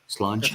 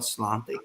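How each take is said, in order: First: The word ends with a 'cha' sound. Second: The word ends with a 'tee' sound. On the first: This is how the word is actually pronounced. The speaker calls it right. "the pronunciation is uh, slancha" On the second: This is how the spelling reads. The speaker calls it wrong. "I guess it's spelled slanty"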